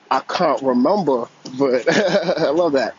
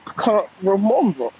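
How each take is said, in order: First: Caller attempting a playful British accent, loud; mock British accent with a laugh; British accent try. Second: Playful attempt at a British accent, pitched up; British accent try. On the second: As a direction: repeat it in a mock British accent, higher. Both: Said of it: "Try to work on my British accent".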